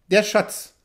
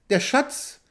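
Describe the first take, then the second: First: Said in the usual way. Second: "Der Schatz" asked with a sharp high rise; startled question. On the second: A narrator's reading. Chief stepping back from the hunter, startled, "Der Schatz?" rising high. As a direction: recoil at the word, pitch jumping up on "Schatz". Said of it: "fragte der Häuptling, indem er einen Schritt zurücktrat".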